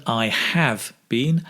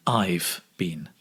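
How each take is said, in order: First: Said in the usual way. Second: "I've been" run together as a contraction, lower and softer; contracted form. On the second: Shown as a demonstration. Teacher showing learners the contraction "I've been", contracted form. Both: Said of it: "Remember to make the contraction".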